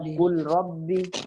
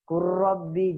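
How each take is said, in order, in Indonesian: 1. L-nya terdengar jelas sebelum R. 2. L-nya menyatu ke dalam R yang ditasydid. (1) "jangan dibaca kul rabbi" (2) "langsung dibaca kurrabbi"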